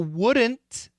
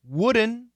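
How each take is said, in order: First: Every consonant, including D and T, is pronounced. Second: The T is dropped after the N. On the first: "So wouldn't is perfect" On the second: "Wouldn't is very common"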